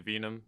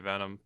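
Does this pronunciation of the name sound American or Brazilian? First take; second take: Brazilian; American. First: The name is given a Brazilian-style pronunciation. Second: The name is given an American-style pronunciation. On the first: This is how Brazilians say it. "I've heard like Brazilians say Venom" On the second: This is how Americans say it. "Americans say Venom"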